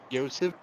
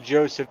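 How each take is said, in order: First: The name begins with a Y sound. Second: The name begins with a J sound. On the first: This is how Russian speakers would say the name. "They'd probably pronounce it Yosef" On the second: This is how English speakers say the name. "They wouldn't pronounce it Joseph"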